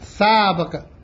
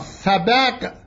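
First: It has no vowel after the b, sabq. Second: It has an a vowel after the b, sabaq. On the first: It means a competition. "سبق به سکون با به معنای مسابقه است" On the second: It means the prize money given in a competition. "سبق به فتح با به معنای پول یا عوضی است"

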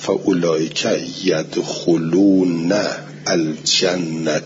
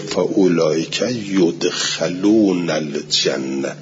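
First: The verb is voiced yadkhulūna, with u after kh. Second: The verb is voiced yudkhalūna, with a after kh. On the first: They enter paradise themselves. "اینهایی که کار خوب بکنن میروند بهشت" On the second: They are brought into paradise by another. "یدخلون بخونه آیه را و فتح خا"

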